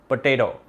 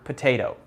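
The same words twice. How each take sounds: First: It is said in an Indian accent. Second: It is said in a non-Indian accent.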